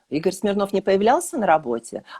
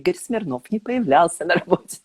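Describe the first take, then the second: First: It is said as a question. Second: It is said with a deeply satisfied tone. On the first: The speaker is asking whether it is true. "с вопросом" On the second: The speaker is pleased by this. "С чувством глубокого удовлетворения"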